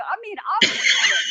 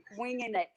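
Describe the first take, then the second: First: Bursts out laughing mid-line, high and loud; real laughter breaking through the words. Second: Said in the usual way. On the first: Real, not acted. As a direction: laugh it out at yourself. Laughing at her own campaign naivety.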